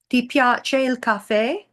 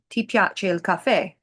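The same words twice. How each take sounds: First: The voice rises at the end. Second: The voice falls at the end. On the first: It asks whether the listener likes coffee. "with a rising tone" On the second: It states that the listener likes coffee. "whereas a statement would be"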